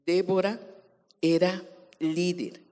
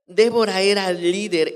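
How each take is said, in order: First: Said in the usual way. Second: Loud, forceful preaching declaration; emphatic repeat. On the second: Real, not acted. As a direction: proclaim it boldly to the congregation.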